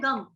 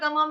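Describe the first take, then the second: First: The word ends on a bare m consonant. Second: The word ends with a full vowel after m. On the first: The speaker calls it wrong. "गलती से हम कैसे बोल देते हैं" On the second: The speaker calls it right. "पूरा"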